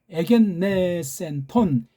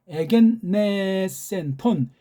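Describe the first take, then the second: No difference in how they are said.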